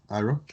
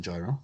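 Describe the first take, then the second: First: "Gyro" said as "EYE-ro"; alternative pronunciation. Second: "gyro" said as "JAI-ro"; mock pronunciation. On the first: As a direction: drop the opening consonant of "Gyro", "EYE-ro". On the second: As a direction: say "gyro" with a soft J at the start. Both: Shown as a demonstration. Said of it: "as I pronounce it".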